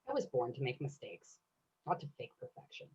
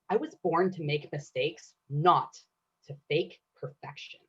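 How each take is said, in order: First: It is said with quiet, relaxed confidence. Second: It is said plainly, leaning on "not."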